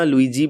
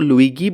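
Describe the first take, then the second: First: The middle consonant is a soft j sound. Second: The middle consonant is a hard g sound.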